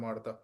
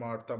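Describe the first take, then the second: No difference in how they are said.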